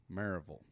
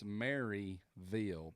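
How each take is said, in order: First: Maryville run together as MAIR-uh-vul; local pronunciation. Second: Maryville slowly as MARY-VILL, full syllables; spelled-out pronunciation. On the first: Pastor teaching host the local name, Maryville as MAIR-uh-vul. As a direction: reduce Maryville's middle and end to "uh-vul". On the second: Pastor correcting host on how it's written, Maryville spelled out in full. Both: Shown as a demonstration. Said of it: "but it is pronounced".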